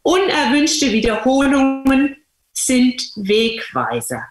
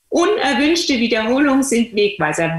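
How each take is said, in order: First: Slow, weighty quote with stress on Unerwünschte; solemn quote. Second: Said in the usual way. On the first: Retold or imitated. Quoting C G Jung to listeners, slow and weighty. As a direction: lay out "Unerwünschte Wiederholungen sind Wegweiser" slowly, as a maxim. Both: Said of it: "Er sagt".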